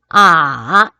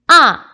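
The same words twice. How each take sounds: First: The pitch dips low and then rises. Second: The pitch falls sharply from high to low. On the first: "삼" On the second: "사성"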